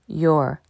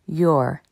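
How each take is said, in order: No difference in how they are said.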